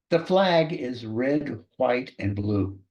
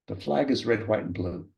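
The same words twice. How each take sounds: First: Slow, measured sample sentence; each word drawn out for dictation. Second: Said in the usual way. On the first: Shown as a demonstration. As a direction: dictate it slowly for someone writing it down. Sample dictation sentence, first reading.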